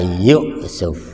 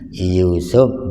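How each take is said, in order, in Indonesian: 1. Hentian glotis mengikuti vokal pertama. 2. Vokal panjang tanpa hentian glotis. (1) "bisa diganti dengan hamzah"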